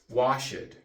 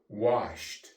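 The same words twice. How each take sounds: First: The ending is said as an extra syllable. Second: The ending is said as a t sound. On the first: The speaker calls it wrong. "we do not say washed" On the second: The speaker calls it right. "the ed is pronounced T"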